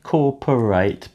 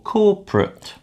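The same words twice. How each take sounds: First: The middle vowel is fully pronounced. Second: The middle vowel is reduced or dropped. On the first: The speaker calls it wrong. "it's not so much corporate" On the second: The speaker calls it right. "but it's more corporate"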